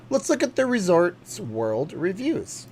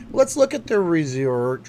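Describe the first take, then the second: First: Slow, higher host read; announcer voice. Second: Slow, louder host read; announcer voice. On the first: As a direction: stretch it like a game-show host. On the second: Streamer announcing the review lookup, slow host voice. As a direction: stretch it out like a game-show host. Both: Acted.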